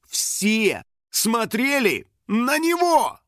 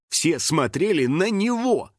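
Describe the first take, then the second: First: "Все смотрели на него" word by word, higher, very slow; dawning alarm. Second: Said in the usual way. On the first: A narrator's reading. Narrator as the truth dawns, "Все смотрели на него" slow and emphatic. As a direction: stretch every word of "Все смотрели на него", rising in pitch.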